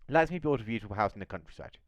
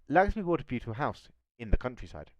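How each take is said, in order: First: The sentence flows on without a break. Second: A break comes before 'in the countryside'. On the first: The house itself is in the countryside. "Nos da a entender que esa casa se encuentra in the countryside" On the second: The buying took place in the countryside. "el trámite de la compra de la casa se realizó in the countryside"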